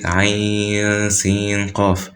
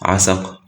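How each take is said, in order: First: Each letter name is said separately in full. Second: The letters are blended into one short word. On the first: The speaker calls it right. "you say it Ayn, Sin, Qaf" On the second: The speaker calls it wrong. "you don't say Asaq"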